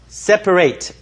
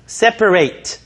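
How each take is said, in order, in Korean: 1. 마지막 음절은 'eight'처럼 들립니다. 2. 마지막 음절은 'eight'처럼 들립니다.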